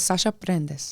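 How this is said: The name is said with a Spanish accent. "in Spanish"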